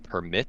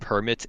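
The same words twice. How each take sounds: First: The stress is on the second syllable. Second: The stress is on the first syllable. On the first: To allow someone to do something. "permitting somebody to do something" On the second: A document that allows something, like a driving licence. "as in like getting a driving permit"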